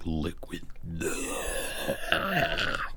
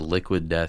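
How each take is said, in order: First: It is said in a growling death-metal voice. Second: It is said in a plain normal voice.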